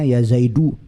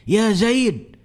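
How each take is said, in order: First: The name ends with a final vowel. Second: The name ends on a bare consonant. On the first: This is the original full form. "aslinya ya Zaidu" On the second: This is the everyday conversational form. "kalau percakapan biasa kan begini"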